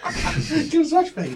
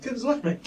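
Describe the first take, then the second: First: High, slow, laughing mock bouncer; slow, high imitation of a bouncer, laughing; laughing repeat. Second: 1 imitating a bouncer. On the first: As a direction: drag it out while cracking up. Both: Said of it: "one of the guys was like".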